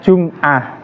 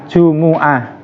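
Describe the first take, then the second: First: The m is followed by no vowel. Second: The m is followed by a u vowel. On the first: "disukun mimnya" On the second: "Jimnya dibaca dhammah, begitu juga mim"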